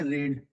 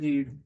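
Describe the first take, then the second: First: The vowel is short, sounding like 'red'. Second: The vowel is long, sounding like 'reed'. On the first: It is the past form of the verb. "ये वाली को बोलते हैं रेड" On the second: It is the present form of the verb. "इसे बोलते हैं रीड"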